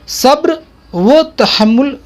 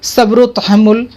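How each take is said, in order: First: The 'wo' is said as a separate word. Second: The 'o' is joined onto the preceding word. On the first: The speaker calls it wrong. "तोड़ करके पढ़ना गलत है" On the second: The speaker calls it right. "इसको आप मिला करके पढ़ेंगे"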